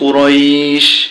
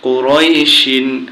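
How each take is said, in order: First: The word ends on the 'sh' sound. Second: The word ends with a final 'in' sound. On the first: The reader stops at this word. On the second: The reading continues past the word.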